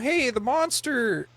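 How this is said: It is spoken in a Scottish accent. The speaker calls it right. "Good Scottish accent"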